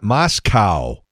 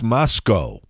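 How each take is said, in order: First: The word ends with a cow sound. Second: The word ends with a go sound. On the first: The speaker calls it wrong. "it's not Moscow" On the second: The speaker calls it right. "There's no cow on the end of that"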